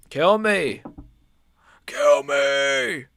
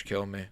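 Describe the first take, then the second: First: Drawn-out, louder plea of mock despair; exasperated cry. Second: Said in the usual way. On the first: Same plea, cried out louder.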